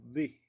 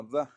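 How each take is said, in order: First: "di" with an ee vowel; "the" before vowels. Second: "da" with an open, unstressed vowel; "the" before consonants. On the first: Teacher shows "the" before a vowel, "di" with ee. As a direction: say "di", the vowel as in "see". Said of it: "Va a sonar como di". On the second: Teacher shows "the" before a consonant, "da" with schwa. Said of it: "si es consonante va a sonar como da". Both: Shown as a demonstration.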